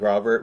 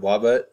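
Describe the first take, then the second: First: The word begins with a clear R sound. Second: The word begins with a W sound instead. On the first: The speaker calls it right. "instead of saying Robert" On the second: The speaker calls it wrong. "we said our R's as W's"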